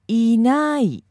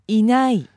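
First: It is said slowly. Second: It is said fast.

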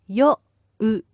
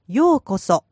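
First: It is said slowly, syllable by syllable. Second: It is said fast as one word.

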